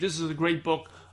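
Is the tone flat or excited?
flat. It is said flatly, without enthusiasm.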